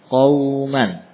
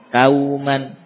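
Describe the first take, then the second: First: The first consonant is pronounced thick and heavy. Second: The first consonant is pronounced thin and light. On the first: The speaker calls it right. "Huruf isti'la. Tebal" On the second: The speaker calls it wrong. "Qawman dibaca qawman ya. Nah, ini tentunya harus diperbaiki"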